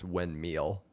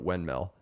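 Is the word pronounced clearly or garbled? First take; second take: garbled; clearly. First: The word is pronounced in a garbled way. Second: The word is pronounced in the standard way. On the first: The speaker calls it wrong. "if I don't think about it and I just say it comes out" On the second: The speaker calls it right. "I can say it right"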